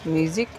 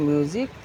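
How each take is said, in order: Both takes have the same delivery.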